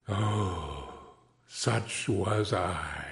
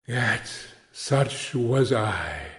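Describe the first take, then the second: First: Much softer, slow, lower echo; a hushed mournful repeat; fading lament. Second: Slow, understated sorrow; mournful regret. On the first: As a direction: let it die away in sorrow. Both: A narrator's reading. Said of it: "cried the phantom".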